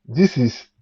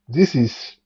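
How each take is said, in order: Both takes have the same delivery.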